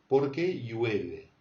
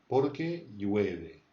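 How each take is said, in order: No difference in how they are said.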